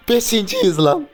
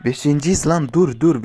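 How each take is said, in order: First: Very high, loud, slow stretched shout; drawn-out furious yell; outraged yell. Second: A bit higher and livelier; excited callout; excited exclaim. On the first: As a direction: wail it out in disbelief. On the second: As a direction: announce the placing with a jolt. Placing fifth, reacting. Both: Real, not acted.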